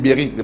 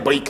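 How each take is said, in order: First: A vowel is sounded between the b and r. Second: The b and r are said together. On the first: The speaker calls it right. "moi je dis bériques" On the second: The speaker calls it wrong. "pas les briques"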